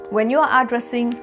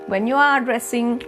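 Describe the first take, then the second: No difference in how they are said.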